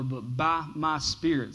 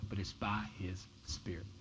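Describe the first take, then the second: First: Said in the usual way. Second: Hushed, breathy whisper of the key line. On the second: Acted. Pastor to congregation, repeating the verse in a whisper. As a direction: lean in and whisper it like a secret.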